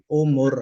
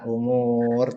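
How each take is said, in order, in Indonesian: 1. Vokalnya dibaca pendek. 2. Vokalnya dibaca panjang. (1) "ini kita baca pendek ya Pak, karena nggak panjang" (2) "Bukan umur"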